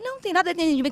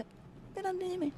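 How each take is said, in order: First: Said in the usual way. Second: Repetido baixinho. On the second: Retold or imitated. Repete a frase, espantada.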